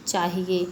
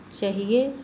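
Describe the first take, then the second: First: Long aa at the start of चाहिए; corrected vowel. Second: Short first vowel in चाहिए, like chahiye; vowel error. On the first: Teacher correcting the aa error, long-vowel चाहिए. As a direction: say चाहिए as chaahiye, first vowel held long. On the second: Teacher showing the aa error, short-vowel चाहिए. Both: Shown as a demonstration. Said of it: "आ संबंधी अशुद्धि".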